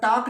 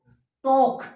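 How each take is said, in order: First: The vowel is an open 'aa' sound. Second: The vowel is a rounded 'o' sound. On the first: The speaker calls it wrong. "टाक नहीं है ये" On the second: The speaker calls it right. "ओ कोशिश किया करो बनानी"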